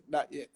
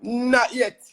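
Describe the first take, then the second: First: Said in the usual way. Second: Quick, high, loud denial; emphatic no. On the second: Real, not acted. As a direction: fire it back, much higher and louder. Answering whether he misses home.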